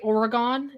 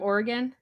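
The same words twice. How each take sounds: First: The name is said with a nonstandard pronunciation. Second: The name is said with the standard pronunciation. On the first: This is how some other people say it. The speaker calls it wrong. "when people say Oregon instead of" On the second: This is the accepted way to say it. The speaker calls it right. "instead of Oregon"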